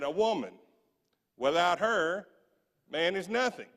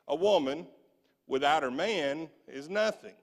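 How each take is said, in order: First: There is a pause after "her". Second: There is a pause after "man". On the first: A man is nothing without a woman. The speaker calls it right. "the women in the classroom punctuated it correctly" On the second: A woman is nothing without her man. The speaker calls it wrong. "the men in the classroom punctuated it in this way"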